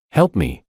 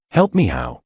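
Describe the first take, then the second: First: Said in the usual way. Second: Mocking high jump on how; scornful rising sneer. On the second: A narrator's reading. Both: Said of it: "George sneered".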